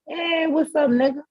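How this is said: It is said in a warm, friendly tone.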